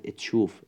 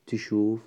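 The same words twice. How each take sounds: First: اتشوف with a short e sound before the t; اتشوف pronounced etshuf; added initial e. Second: تشوف starting straight on the t, no vowel before it; تشوف pronounced tshuf with no initial e; no added vowel. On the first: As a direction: lead into اتشوف with a quick e-. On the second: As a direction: say تشوف with the bare t cluster first. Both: Shown as a demonstration.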